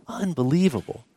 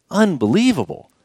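First: Soft, hushed unbelievable; hushed awe. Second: Said in the usual way. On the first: Acted. Preacher to the congregation, hushed in awe. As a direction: breathe the word Unbelievable in quiet wonder. Repeated awe, much softer.

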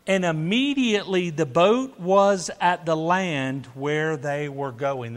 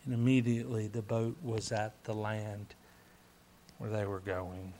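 First: Louder opening, settling by the end; emphatic scripture reading. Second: Low, soft repeat, fading at the end; hushed awe. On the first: Preacher reads boat miracle to congregation, reading emphatically. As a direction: read the miracle out with force. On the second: Preacher repeats boat miracle to congregation, hushed and low. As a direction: let the verse sink in, quietly. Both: Real, not acted.

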